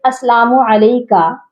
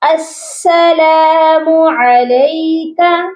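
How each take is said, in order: First: The s sound is short and light. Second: The s sound is doubled and firm. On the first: The speaker calls it wrong. "एक और mistake" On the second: The speaker calls it right. "सीन पर भी तशदीद है, यहाँ पर हमने सख्ती से पढ़ना है सीन को"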